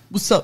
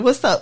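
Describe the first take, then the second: First: Spoken in a put-on deep, manly voice. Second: Spoken in her ordinary natural voice. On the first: "I feel like I need to read it in a man voice" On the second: "I will not"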